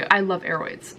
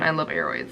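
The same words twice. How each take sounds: First: Said in the usual way. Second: I love aroids in a much lower, deep put-on voice. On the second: Shown as a demonstration. Repeats line, second take dropped low.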